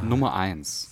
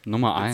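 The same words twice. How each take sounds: First: It is said in a very soft voice. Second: It is said in a plain, ordinary voice.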